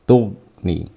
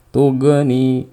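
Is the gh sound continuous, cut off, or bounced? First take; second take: cut off; bounced. First: The gh sound is stopped short abruptly. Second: The gh sound ends with a bouncing echo. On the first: "jangan dimatikan seperti ini" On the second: "Atau dikolkolakan"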